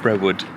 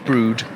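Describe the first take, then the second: First: The name is said with two syllables. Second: The name is said with one syllable. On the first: The speaker calls it wrong. "we have been pronouncing it Brewood" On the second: The speaker calls it right. "But it's Brood"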